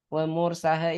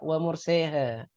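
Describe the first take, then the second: First: The vowel after the s is a plain open a. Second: The vowel after the s is tilted toward e. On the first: The speaker calls it right. "ini tetap biasa" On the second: The speaker calls it wrong. "jangan sampai dibaca wa murseha"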